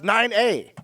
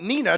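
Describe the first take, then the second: First: The first syllable sounds like 'nine'. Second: The first syllable sounds like 'nee'. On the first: The speaker calls it right. "Turns out it's nine A" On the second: The speaker calls it wrong. "I've been calling it Nina"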